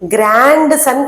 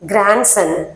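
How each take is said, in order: First: The d sound is clearly pronounced. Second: The d sound is swallowed and silent. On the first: The speaker calls it wrong. "కరెక్ట్ pronunciation గ్రాండ్ సన్ కాదు" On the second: The speaker calls it right. "ఆ డి అనేది swallow అయిపోతుంది"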